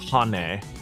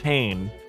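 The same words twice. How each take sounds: First: The name is read with Japanese pronunciation. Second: The name is read with English pronunciation. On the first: "that's like a Japanese breakdown says Hane" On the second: "my English brain says Hane"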